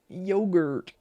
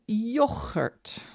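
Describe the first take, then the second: First: The word has an English pronunciation. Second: The word has a Dutch pronunciation with a rasping g.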